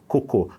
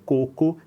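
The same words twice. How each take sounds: First: "cocô" stressed on the final CÔ; stress on last syllable. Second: "coco" stressed on the first CO; stress on first syllable. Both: Shown as a demonstration. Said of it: "a gente trocou a sílaba tônica".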